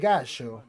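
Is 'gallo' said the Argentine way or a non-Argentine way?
Argentine. The double L is said the Argentine way. The speaker calls it right. "They do say gallo"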